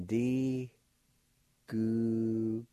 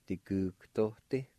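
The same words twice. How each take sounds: First: "D Gugtote" drawn out in separate, held syllables; syllable-by-syllable pronunciation. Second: "Digugtote" run together as one word; "Digugtote" in one go, syllables no longer held; joined-up pronunciation. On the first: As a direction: sound out "D Gugtote" very slowly, G almost like K. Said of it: "like this". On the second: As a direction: say "Digugtote" connected, G almost like K. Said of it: "almost sounds like a K sound". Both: Shown as a demonstration.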